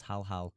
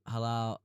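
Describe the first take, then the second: First: "Hal Hal" as two separate, even beats, HAL HAL; corrected name. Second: "Halal" said as one word, huh-LAHL, stress on the second syllable; mispronounced name. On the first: Streamer corrects his own slip on the name, saying "Hal Hal" as two even beats. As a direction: split "Hal Hal" cleanly into two equal syllables, HAL HAL. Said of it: "I keep saying Halal". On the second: Streamer reading a lineup slips on a player's name, saying "Halal" as huh-LAHL. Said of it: "I keep saying Halal, it's Hal Hal". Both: Real, not acted.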